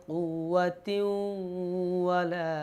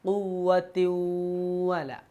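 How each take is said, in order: The two takes are said the same way.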